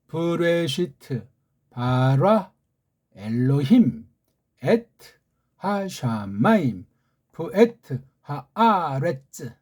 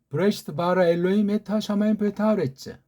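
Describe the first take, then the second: First: The phrase is read slowly. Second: The phrase is read quickly. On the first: "천천히요" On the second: "조금 더 빨리"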